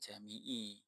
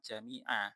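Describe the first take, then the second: First: The word ends with an 'i' vowel. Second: The word ends with an 'a' vowel. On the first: The word is read in the genitive case. The speaker calls it wrong. "bukan jami'i" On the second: The word is the object of the verb-like noun. The speaker calls it right. "ini sahnya ini dibaca jami'a"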